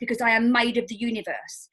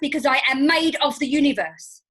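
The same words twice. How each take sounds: First: It is said in a calm, plain voice. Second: It is said with strong, pumped-up energy. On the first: "I don't just say it like that" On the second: "I am in my power pose and I will say it something like this"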